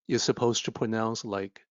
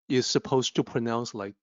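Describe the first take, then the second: Both takes have the same delivery.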